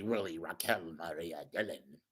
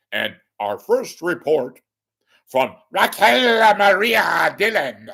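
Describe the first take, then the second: First: Much softer, dry and doubting; sarcastic mutter. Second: Higher, louder, grand on-air introduction; mock announcer intro. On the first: Real, not acted. Caller scoffs at the reporter's name, soft and sarcastic. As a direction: drop it low, full of scorn. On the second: Caller parodies the anchor's intro of the reporter, big and announcer-like. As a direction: belt out the name like a news anchor.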